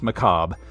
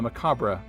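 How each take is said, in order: First: The word ends without an extra final syllable. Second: The word ends with an extra 'bra' syllable. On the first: "I know the word is pronounced macabre" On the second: "doesn't sound quite as funny as Macabre Mandelabra"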